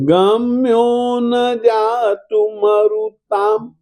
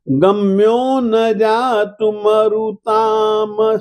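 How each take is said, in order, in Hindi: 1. अंतिम m एक खुला, आधा व्यंजन है। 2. अंतिम m को पूरे स्वर के साथ बोला जाता है। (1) "ये आधा म है।" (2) "यही तुम्हारी गलती हो जाती है। म को पूरा न मत बोलिएगा"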